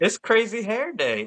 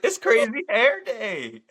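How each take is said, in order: First: High-pitched, insistent mock explanation; high, emphatic comeback in a retold exchange; emphatic retort. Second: Slow, high, over-stretched mock explanation; high, slow, exasperated retelling; drawn-out announcement. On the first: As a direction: retell it as an obvious announcement, pitched up. Parent retells explaining hair to staff. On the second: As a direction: stretch each word as if spelling out the obvious. Repeats the explanation to teachers.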